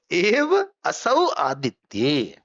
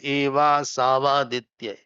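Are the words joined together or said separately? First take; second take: separately; joined. First: The words are said as separate words. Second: The words are run together into one. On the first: "I broke it so that we can read it" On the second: "It is one sandhi is there"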